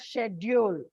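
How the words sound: The word is said the British way. "while the British pronounce it as schedule"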